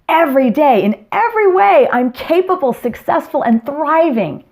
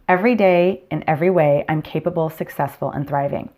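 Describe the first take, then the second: First: It is said loudly and powerfully. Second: It is said softly and flatly.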